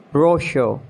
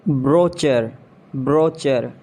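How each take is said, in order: First: "Brochure" as BRO-shuh; SH sound, silent R in "Brochure"; British pronunciation. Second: "Brochure" as BRO-cher; CH as in chair in "Brochure"; mispronounced brochure. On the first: Shown as a demonstration. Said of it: "exact pronunciation according to the British". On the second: Acted. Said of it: "you have to correct me".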